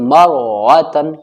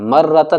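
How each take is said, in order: First: The r sound is heavy and full. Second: The r sound is thin and light. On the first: The speaker calls it right. "तब भी मोटी पढ़ी जाएगी" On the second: The speaker calls it wrong. "अब लोग इसे क्या पढ़ते हैं मर्रतन, मर्रतन नहीं"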